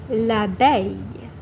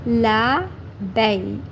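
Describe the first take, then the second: First: Said in the usual way. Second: L'abeille drawn out slowly, la-beille; slow model word. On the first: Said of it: "In French". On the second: Shown as a demonstration. Teacher to viewers, slowly modelling L'abeille. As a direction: stretch L'abeille slowly for learners.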